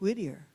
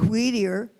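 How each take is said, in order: First: It is said without a noticeable accent. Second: It is said with a noticeable accent. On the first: The speaker calls it right. "you say it Whittier" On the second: The speaker calls it wrong. "you don't say it Whittier"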